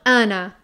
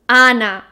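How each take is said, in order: First: The first vowel is said with a closed mouth. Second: The first vowel is said with an open mouth. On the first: The speaker calls it wrong. "not Ana" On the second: The speaker calls it right. "So open your mouth"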